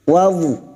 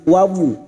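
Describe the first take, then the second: No difference in how they are said.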